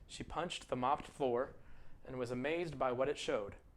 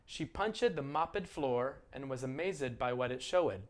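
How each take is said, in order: First: The -ed endings add no extra syllables. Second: The -ed endings are said as extra syllables. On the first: The speaker calls it right. "This is the way I would say it" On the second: The speaker calls it wrong. "Maybe you pronounced it this way"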